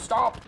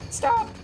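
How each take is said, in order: First: It is said in another character's voice. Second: It is said in a put-on Aerith voice.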